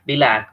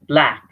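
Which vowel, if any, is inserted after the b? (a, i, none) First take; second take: i; none. First: An i-like vowel is inserted between b and l. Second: The b and l are said together with no vowel. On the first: The speaker calls it wrong. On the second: The speaker calls it right.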